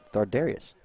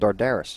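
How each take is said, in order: First: The name ends with the sound 'arius'. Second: The name ends with the sound 'aris'. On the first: The speaker calls it right. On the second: The speaker calls it wrong.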